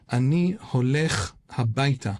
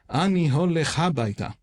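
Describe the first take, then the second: First: The words are stressed on the second syllable. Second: The words are stressed on the first syllable. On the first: "put the accent Ani holech habaita on the second syllable"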